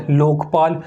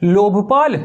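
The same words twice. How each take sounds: First: लोकपाल with a clean k, lok not lobh; लोकपाल said correctly and lower; relaxed correct लोकपाल after the joke version; said as lok-paal. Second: लोभपाल with a breathy bh, lobh not lok; लोभपाल, the greedy version, pressed out; said as lobh-paal. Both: Shown as a demonstration. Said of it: "लोभ लोग एक ही बात है".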